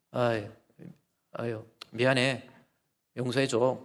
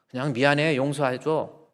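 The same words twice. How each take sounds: First: A hint of a sheepish husband brushing it off; lightly voiced husband mumbling a quick sorry; offhand apology. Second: "미안해" pushed out a little louder, "용서해줘" dropped on a falling tune; a light mock "미안해, 용서해줘" with a falling end; mock bare sorry. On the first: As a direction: toss off the apology lightly, like it's nothing. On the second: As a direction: show up how empty a bare sorry is.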